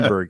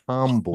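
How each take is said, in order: First: It is said with an American accent. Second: It is said with a German accent.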